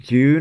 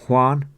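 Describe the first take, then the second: First: The name sounds like the English word June. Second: The name sounds like 'hwan', with one syllable. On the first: The speaker calls it wrong. "I pronounced it June, I think, at first" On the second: The speaker calls it right. "It's pronounced Juan"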